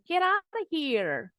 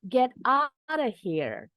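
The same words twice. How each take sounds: First: The phrase is said quickly. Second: The phrase is said slowly. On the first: "Sekarang kita cepat. Speed up a little" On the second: "pelan-pelan dulu"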